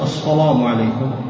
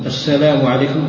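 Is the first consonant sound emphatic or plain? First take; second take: emphatic; plain. First: The s sound is emphatic and heavy. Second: The s sound is plain and light. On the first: The speaker calls it wrong. "فالسين إذا فخمتها صارت صادا" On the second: The speaker calls it right. "عوض ما تقول مثلا"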